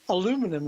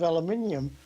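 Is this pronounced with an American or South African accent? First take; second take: American; South African. First: It is said with an American accent. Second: It is said with a South African accent. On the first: This is the form adopted for the children in the US. "say aluminum instead of" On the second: This is the speaker's original form. "instead of aluminium"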